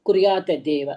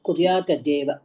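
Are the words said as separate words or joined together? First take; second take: joined; joined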